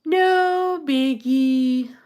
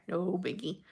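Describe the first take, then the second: First: No biggie stretched out very slowly and higher, sing-song; drawn out. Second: Said in the usual way. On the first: Real, not acted. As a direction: draw out No biggie long and high, playfully. Repeats phrase drawn out, higher.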